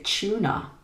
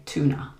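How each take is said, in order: First: British "tuna" with a ch sound at the start; "tuna" starting like "chew"; British pronunciation. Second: American "tuna" with a plain t; "tuna" starting like "too", no ch; American pronunciation. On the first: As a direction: say "tuna" as CHOO-na. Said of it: "in British English, we would say". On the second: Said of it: "but in American English". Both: Shown as a demonstration.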